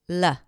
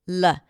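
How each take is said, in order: First: The L is made with the tongue tip only. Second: The same.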